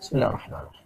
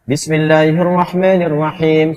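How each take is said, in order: First: It is recited quietly. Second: It is recited aloud.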